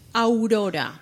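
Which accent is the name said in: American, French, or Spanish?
Spanish. The name is said with a Spanish accent. The speaker calls it right. "that's Aurora. 100% correct"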